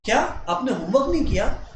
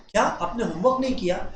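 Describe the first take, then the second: First: Said in the usual way. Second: Soft, caring teacher asking gently; gentle concerned teacher; lovingly. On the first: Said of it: "जब मैं ऐसे बोलता हूं". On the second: Shown as a demonstration. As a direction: ask it with affection, a bit softer. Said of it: "इतने प्यार से कोई teacher बोल रहा है".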